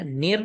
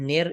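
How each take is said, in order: First: نر said as thin "nir"; correct maroof vowel. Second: نر said as "nayr"; wrong majhool vowel. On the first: Teacher corrects the mistake, maroof "nir" for نر. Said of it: "نہیں پڑھا جائے گا". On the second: Teacher shows what not to read, majhool "nayr" for نر. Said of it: "اس کو نہیں پڑھا جائے گا". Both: Shown as a demonstration.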